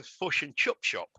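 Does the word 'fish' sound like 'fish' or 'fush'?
fush. Fish and chip have a centralized 'u'-like vowel.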